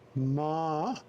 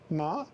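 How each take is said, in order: First: The pitch dips low then rises. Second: The pitch rises from middle to high. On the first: It means horse. "Ma is horse" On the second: It means hemp. "Ma is uh, um, hemp"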